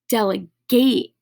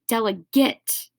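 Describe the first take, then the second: First: It is pronounced the way the verb is said. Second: It is pronounced the way the noun is said. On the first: To give out power, responsibility, or a task. "which is actually the verb form" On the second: A representative chosen to speak or act for others. "delegate is a noun form"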